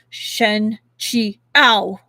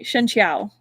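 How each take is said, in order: First: The name is split into separate, pausing syllables. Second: The name is said smoothly without pauses. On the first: The speaker calls it wrong. "syllable by bil- syllable" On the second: The speaker calls it right. "We'll just say it like that"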